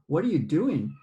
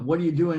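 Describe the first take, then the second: First: It sounds gentle and caring. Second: It sounds harsh and accusing.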